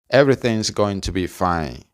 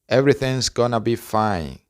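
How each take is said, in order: First: Going to is said fully as two words. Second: Going to is reduced and blended into gonna.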